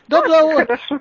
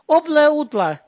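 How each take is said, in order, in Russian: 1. Звуки 'д' и 'р' произносятся нормально. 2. Звуки 'д' и 'р' заменяются на 'л'.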